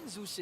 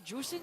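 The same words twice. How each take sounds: First: Zusin with an opening Z sound; soft, questioning "Zusin" with Z; trying a pronunciation. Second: Jusin with an opening J sound; soft, unsure "Jusin" with J; trying a pronunciation. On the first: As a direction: offer Zusin softly, starting on Z. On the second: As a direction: offer Jusin softly, starting on J. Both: Shown as a demonstration. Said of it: "how do you say it again".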